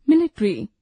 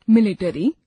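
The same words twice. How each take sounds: First: Said in the usual way. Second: मिलिट्री said as मिलिटरी with an extra a before the r; wrong pronunciation. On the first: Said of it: "शुद्ध उच्चारण". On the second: Shown as a demonstration. Teacher showing learners the faulty form. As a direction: split the ट्र in मिलिट्री: मिलिटरी. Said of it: "अशुद्ध उच्चारण".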